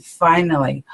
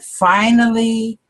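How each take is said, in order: First: Said in the usual way. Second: Finally stretched slow and higher; drawn-out finally. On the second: Real, not acted. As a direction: lean into finally, savouring the relief. Drawn-out repeat after "oh my God.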